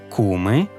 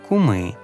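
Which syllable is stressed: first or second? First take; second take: second; first. First: The stress is on the second syllable. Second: The stress is on the first syllable. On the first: "наголос на закінченні" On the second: "і на корені"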